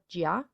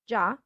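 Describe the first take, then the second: First: The i after g is pronounced. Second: The i after g is silent. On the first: The speaker calls it wrong. "and not gia" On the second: The speaker calls it right. "it's ja"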